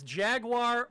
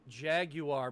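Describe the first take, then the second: First: It is said in an American accent. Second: It is said in a British accent. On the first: "There's two ways to say it. It's Jaguar" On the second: "if you want to say it the British way"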